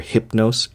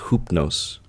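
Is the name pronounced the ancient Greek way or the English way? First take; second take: English; ancient Greek. First: The name is said with an English-style vowel. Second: The name is said with an ancient Greek vowel. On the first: "the more English pronunciation of the Latin form" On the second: "in ancient Attic pronunciation is pronounced Hoopnos"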